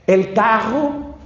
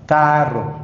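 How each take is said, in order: First: "carro" dicho lento, con la erre suave como "cago", a lo niño; niño pronunciando mal. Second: "carro" con la erre bien vibrada y marcada; enseña a decir "carro" con erre fuerte, como un papá; pronunciación correcta. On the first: Retold or imitated. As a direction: imita al niño que dice "El carro" sin la erre vibrante, despacio. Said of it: "el niño dice". (un niño pequeño diciendo mal "carro", lento) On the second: Shown as a demonstration. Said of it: "se dice carro". (el papá corrige al niño: "carro" bien pronunciado)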